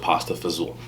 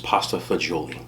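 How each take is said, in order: First: The last word is clipped, ending in fa-zool. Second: The last word is said in full, fa-jo-lee. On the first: This is the name used among Italian Americans. "grew up around a lot of Italian Americans" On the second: This is the name written on the menu. "the correct pronunciation is"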